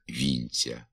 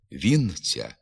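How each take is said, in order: First: «вінця» with soft нь, lower and softer; softened н. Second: Said in the usual way. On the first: Shown as a demonstration. Teacher models the pronunciation quietly. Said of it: "вимовляється ж". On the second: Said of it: "Пишеться".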